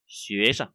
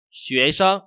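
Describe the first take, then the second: First: Sân brief, lower, unstressed; light tone on sân. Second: Sân loud, level and full. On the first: Teacher shows second reading, sân light. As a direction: brush lightly past sân. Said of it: "Đều được". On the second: Teacher shows first reading, sân with full tone. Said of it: "có thể có hai cái đọc". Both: Shown as a demonstration.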